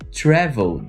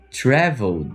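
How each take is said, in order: First: The ending is reduced to a D sound. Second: The ending is reduced to a D sound.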